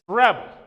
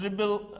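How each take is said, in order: First: The stress is on the first syllable. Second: The stress is on the second syllable. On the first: It is used as a noun. "Stress on r" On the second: It is used as a verb. "stress on B"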